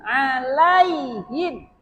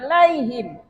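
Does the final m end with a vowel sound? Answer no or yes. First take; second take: yes; no. First: The final m is followed by a vowel sound. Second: The final m is closed with no vowel. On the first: The speaker calls it wrong. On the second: The speaker calls it right.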